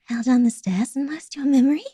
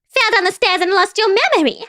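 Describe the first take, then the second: First: It is said in a creepier, eerie voice. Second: It is said in a goofy, laughing voice.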